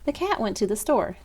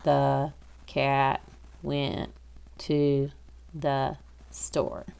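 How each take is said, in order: First: It is read smoothly and naturally, like normal speech. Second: It is read choppily, word by word, like a robot. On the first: The speaker calls it right. "kind of like when we're speaking" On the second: The speaker calls it wrong. "You don't want to sound like a robot when you're reading"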